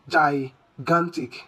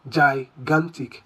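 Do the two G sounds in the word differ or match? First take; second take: differ; differ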